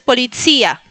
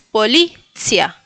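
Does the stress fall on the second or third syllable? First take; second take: third; second. First: The stress is on the third syllable. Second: The stress is on the second syllable. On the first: The speaker calls it wrong. "no es policía" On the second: The speaker calls it right. "es policia ... en la segunda sílaba, que es la li"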